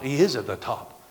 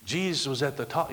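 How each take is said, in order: First: "is" picked out as a correction; stress on IS. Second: Said in the usual way. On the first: Real, not acted. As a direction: lean on "is" to correct the tense. Corrects was to is.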